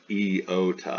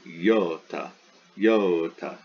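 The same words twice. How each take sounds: First: "iota" pulled apart as ee-oh-ta; three-syllable iota. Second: "iota" as YO-ta, two clear beats; two-syllable iota. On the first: Teacher shows what iota is not, "ee-oh-ta" in three syllables. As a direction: give "iota" a separate opening vowel, three beats. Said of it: "It's not three syllables". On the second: Teacher corrects the count to two syllables, "yo-ta". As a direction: start "iota" with a consonant y: yo-ta. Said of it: "Two syllables". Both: Shown as a demonstration.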